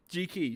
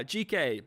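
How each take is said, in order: First: "G K" said as the corrected name. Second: "G K" said wrongly, before correcting it; mispronounced name. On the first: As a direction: fix the slip on "G K". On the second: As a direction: slip on the name "G K". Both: Real, not acted. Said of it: "Keep messing up your name".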